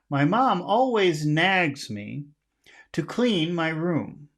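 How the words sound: Key words are high and phrase endings are low.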